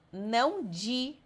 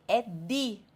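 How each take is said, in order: First: "di" slow, as dji; Portuguese di. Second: "di" with a hard d; Italian di. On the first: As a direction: say "di" the Brazilian way, dji. ("di" como dji, devagar) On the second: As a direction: say "di" with a clean d. ("di" com d duro) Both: Shown as a demonstration. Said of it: "É di, não di".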